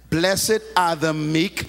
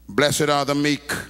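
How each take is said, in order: First: It is said slowly. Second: It is said at normal speed.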